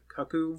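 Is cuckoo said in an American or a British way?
British. The word is said in a British way. This is how the makers of the show say it. "but they pronounce it cuckoo"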